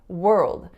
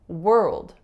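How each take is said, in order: No difference in how they are said.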